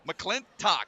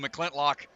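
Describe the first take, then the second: First: No extra L sound comes before the last syllable. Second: An extra L sound comes before the last syllable. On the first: The speaker calls it right. "So it's McClintock" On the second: The speaker calls it wrong. "I threw a random L in there"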